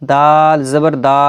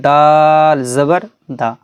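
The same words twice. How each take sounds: First: Final দা stretched long; wrongly drawn-out ending. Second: Long দাল, then a quick short দা; short final syllable. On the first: Teacher shows how it was not read, drawn-out final দা. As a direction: drag the last দা out instead of cutting it. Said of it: "এরকম কিন্তু পড়িনি". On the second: Teacher repeats how it was read above, short final দা. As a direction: hold দাল and cut the last দা short. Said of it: "যেরকম পড়েছি". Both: Shown as a demonstration.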